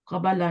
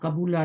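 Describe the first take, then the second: First: The vowel after the b is a. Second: The vowel after the b is u. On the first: "नहीं होता" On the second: "नहीं होता"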